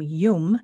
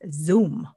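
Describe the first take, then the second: First: The name begins with a y sound. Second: The name begins with a z sound. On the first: "my name Yum" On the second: "In the northern part of Vietnam, they pronounce it Zoom"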